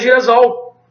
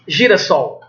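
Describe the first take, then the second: First: The middle consonant is a buzzing z sound. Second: The middle consonant is a hissing s sound. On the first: The speaker calls it wrong. "se eu não dobrar o S, vai ficar girasol" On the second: The speaker calls it right. "Eu tenho que dobrar para manter a sonoridade"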